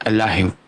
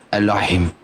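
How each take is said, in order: The two takes are said the same way.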